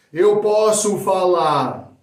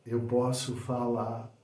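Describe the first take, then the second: First: Loud, high, drawn-out projection; loud delivery. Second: Quiet, slow, measured version; soft delivery. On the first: Coach showing one way of saying a phrase, loudly. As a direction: project it big and slow. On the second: Coach showing another way of saying a phrase, softly. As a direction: bring it right down, unhurried. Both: Shown as a demonstration. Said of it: "dependendo de como você fala".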